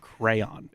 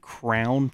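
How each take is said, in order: First: The word is said as two syllables, cray-on. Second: The word is said as one syllable, like crown. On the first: This is the usual way of saying it elsewhere. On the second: This is the local way of saying it.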